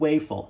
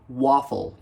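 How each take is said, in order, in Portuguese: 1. A primeira vogal é um 'a' do português brasileiro. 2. A primeira vogal é um 'a' no estilo inglês. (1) "eu não falo waffle" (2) "eu falo waffle"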